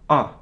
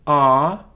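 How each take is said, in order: First: The vowel is cut short. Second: The vowel is held long. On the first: "А есть короткое А" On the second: "есть долгое А"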